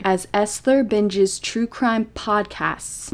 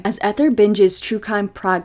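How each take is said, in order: First: Very slow, each word placed carefully; slow deliberate reading after tripping over the words; slow careful reread. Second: Said in the usual way. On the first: Real, not acted. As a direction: spell it out slowly after stumbling. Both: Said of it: "I'm losing my ability to speak".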